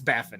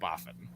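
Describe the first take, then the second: First: The first vowel sounds like the vowel in 'bat'. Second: The first vowel sounds like the vowel in 'bog'. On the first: The speaker calls it right. "So it's it's Baffin" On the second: The speaker calls it wrong. "not Boffin"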